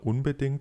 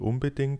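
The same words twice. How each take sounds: First: It is said with an n before the b. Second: It is said with an m before the b.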